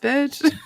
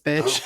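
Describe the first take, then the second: First: It is said in a warm, playful tone. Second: It is said in a harsh, hostile tone. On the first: It is meant as friendly encouragement. The speaker calls it right. "Lovingly, ... like yes, bitch" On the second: It comes across as an insult. The speaker calls it wrong. "It sounds aggressive"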